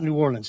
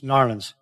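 First: The name is said in a standard, full form. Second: The name is said in a clipped Southern form. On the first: The speaker calls it wrong. "It's not New Orleans" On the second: The speaker calls it right. "it's Narlands. ... I'm working on my southern pronunciation"

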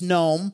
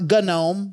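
First: The G at the start is silent. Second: The G at the start is pronounced. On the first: The speaker calls it right. "it's gnome" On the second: The speaker calls it wrong. "It's not gnome"

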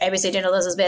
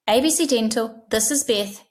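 First: It is said in a flat, unfriendly tone. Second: It is said in a warm, friendly tone. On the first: The caller does not feel welcomed. The speaker calls it wrong. "it's not going to be very nice for the caller" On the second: The caller feels welcomed. The speaker calls it right. "we assume you said it in a nice way"

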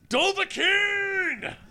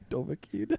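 First: It is said loudly. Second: It is said at normal, quieter volume.

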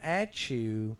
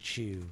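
First: An extra syllable comes before 'Chew'. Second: The name is just the single syllable 'Chew'. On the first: The speaker calls it wrong. "Not at Chew" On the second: The speaker calls it right. "but Mr. Chew"

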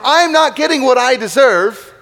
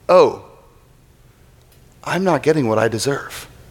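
First: It is said in a resentful, complaining tone. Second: It is said in a relieved, realizing tone.

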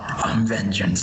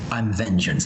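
First: The voice sounds forced and gravelly. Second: The voice sounds natural and unforced. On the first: The speaker calls it wrong. "He doesn't force his voice too much" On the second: The speaker calls it right. "he really sounds natural"

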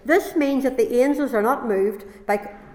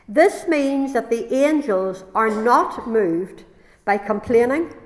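First: It is read at a normal, quicker pace. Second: It is read at a slower, deliberate pace.

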